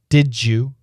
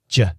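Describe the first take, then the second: First: The d and y blend into 'didja'. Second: It shrinks to a single short j sound.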